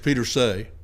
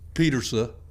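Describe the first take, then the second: First: The name ends with a 'say' sound. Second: The name ends like Peterson without the n. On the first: This is the speaker's own habitual way. The speaker calls it wrong. "than it is Petersay. But I say Petersay" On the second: This is how the man himself said it. The speaker calls it right. "It's like Peterson without the N. So it's probably closer to Petersa"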